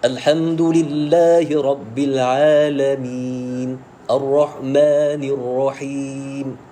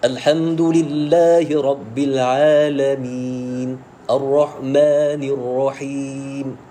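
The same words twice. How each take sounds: First: Each letter is pronounced separately and clearly. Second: Each letter is pronounced separately and clearly.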